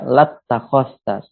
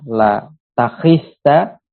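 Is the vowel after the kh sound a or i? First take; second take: a; i. First: Doubled t, with an a vowel after kh. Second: Single t, with an i vowel after kh. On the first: This is the other accepted variant reading of the word. "dengan mentasdid huruf ta-nya dan menfathah huruf kha-nya" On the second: This is one accepted variant reading of the word. "dengan taknya diringankan, kemudian ya, kha-nya dikasroh"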